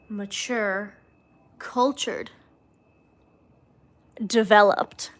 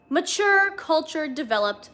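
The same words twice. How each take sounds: First: The last word is stressed in a sultry way. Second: The last word is said plainly, without seduction. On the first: The speaker calls it right. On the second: The speaker calls it wrong.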